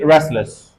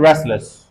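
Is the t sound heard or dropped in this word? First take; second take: dropped; dropped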